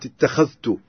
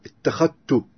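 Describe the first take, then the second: First: Said in the usual way. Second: "ittakhattu" for اتخذت, no dh sound; dhal merged into ta. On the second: Shown as a demonstration. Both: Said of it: "هناك إدغام الذال في التاء".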